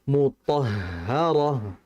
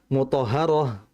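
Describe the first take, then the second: First: The h sound is drawn out with flowing breath. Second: The h sound is said quickly and cut short. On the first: The speaker calls it right. "Yang betul mutahharah" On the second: The speaker calls it wrong. "Jangan mutahharah, jangan terlalu cepat"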